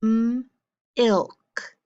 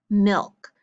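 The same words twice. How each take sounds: First: Milk split into a held M, then "ilk"; sounded out. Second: Said in the usual way. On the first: Shown as a demonstration. Teacher sounding out a word for the class, in separated parts. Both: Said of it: "let's sound it out".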